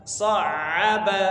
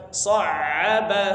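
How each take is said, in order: No difference in how they are said.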